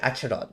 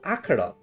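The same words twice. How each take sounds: First: The 'ch' is said like the 'ch' in church. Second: The 'ch' is said as a hard k sound. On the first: "I spell it Acheron" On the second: "the proper name is called Acheron. ... How come it pronounces K?"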